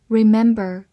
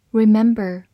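The two takes are said the same way.

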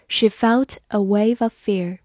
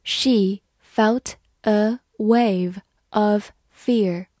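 First: Said in the usual way. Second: Slow, careful classroom read; slow model reading for learners. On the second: Shown as a demonstration. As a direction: read each word slowly and clearly. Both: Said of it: "好，慢读一遍".

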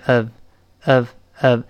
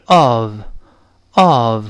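First: "of" reduced to a short schwa plus v; light, unstressed "of"; weak form. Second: "of" stressed with a full rounded o; slow strong form of "of". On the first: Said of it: "轻读变成of，of，of". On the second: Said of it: "如果重读的话是of，of". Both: Shown as a demonstration.

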